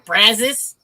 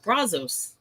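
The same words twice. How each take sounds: First: It is said with the local Texan pronunciation. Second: It is said with a non-Texan pronunciation. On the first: This is how locals say it. "they pronounce it here" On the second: This is how an outsider says it. "I would pronounce it"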